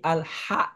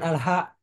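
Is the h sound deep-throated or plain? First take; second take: deep-throated; plain. First: The h is a deep, throaty h. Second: The h is a plain, light h. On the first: The speaker calls it right. "tapi Al-Ha" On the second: The speaker calls it wrong. "Bukan Al-Ha"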